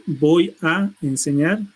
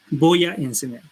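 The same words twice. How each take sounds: First: "Voy a enseñar" slow, "voy a" merged into one syllable; slow linking. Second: Said in the usual way. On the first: Shown as a demonstration. Teacher demonstrating linking on "Voy a enseñar". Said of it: "llamamos como el linking". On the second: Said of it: "configurando una sola palabra".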